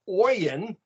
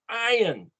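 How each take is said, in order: First: The word begins with an 'oy' sound. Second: The word begins without an 'oy' sound. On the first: The speaker calls it wrong. "it's not pronounced oyin" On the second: The speaker calls it right. "it's iron"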